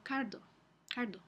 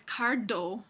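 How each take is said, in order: First: Cardo with a softer d; cardo, the d gently voiced; soft fricative d. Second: Cardo with a hard stopped d; cardo, the d stopped fully; wrong hard d. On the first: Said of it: "Es más suave". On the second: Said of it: "No es cardo". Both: Shown as a demonstration.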